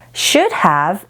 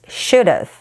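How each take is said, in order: First: Both words are said fully and separately. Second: The words blend into one reduced form.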